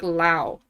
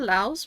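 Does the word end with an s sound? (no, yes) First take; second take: no; yes. First: The word ends without an s sound. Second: The word ends with an s sound. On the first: "I've always said like Lao" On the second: "Laos with an S?"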